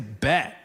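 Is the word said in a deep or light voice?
deep. It is said deep, from the gut and throat. The speaker calls it right. "You have to say it from the gut. It needs to come from the back of the mouth"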